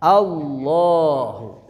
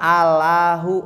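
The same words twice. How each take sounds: First: The l is said thick and heavy. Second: The l is said thin and light. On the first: The speaker calls it right. "kesananya tebal, tafkhim" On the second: The speaker calls it wrong.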